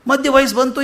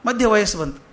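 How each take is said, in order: First: ಮಧ್ಯ ವಯಸ್ಸು ಬಂತು said higher and louder, with ವಯಸ್ಸು rising; emphatic repeat. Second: Said in the usual way. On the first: Shown as a demonstration. Preacher to audience, ವಯಸ್ಸು pushed higher and louder with a rise. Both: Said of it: "repeated with emphasis".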